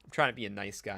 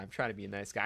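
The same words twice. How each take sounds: First: Said in the usual way. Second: Softer, under the breath; quiet self-mocking repeat; muttered aside. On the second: Shown as a demonstration. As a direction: mutter it to yourself.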